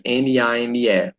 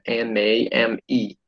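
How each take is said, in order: First: "N A M E" spelled out slowly, each letter named the Portuguese way. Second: "N A M E" spelled with English letter names, en, ay, em, ee, a little softer. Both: Shown as a demonstration. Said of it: "Se for em inglês seria".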